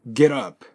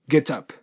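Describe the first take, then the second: First: The t becomes a soft d linking into up. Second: The t is pronounced clearly before up. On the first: "北米英語ではこれget up と発音します" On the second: "イギリス英語はちゃんとT を発音しますので"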